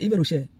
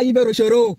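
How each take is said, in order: First: The name ends without any added final vowel. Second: The name ends with an added final o vowel. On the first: The speaker calls it right. "C'est Yves Rocher" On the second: The speaker calls it wrong. "c'est pas Yves Rochero"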